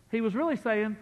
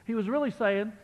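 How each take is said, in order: Both takes have the same delivery.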